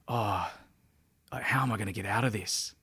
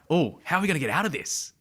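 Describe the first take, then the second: First: It sounds doubtful and fearful. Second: It sounds curious, with childlike wonder.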